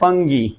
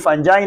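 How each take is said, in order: First: The g is hard and it ends in 'gee'. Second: The g is soft and it ends in 'jai'. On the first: The speaker calls it right. "इसको pronounce किया जाता है फंगी" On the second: The speaker calls it wrong. "ये basically फंजाई नहीं है"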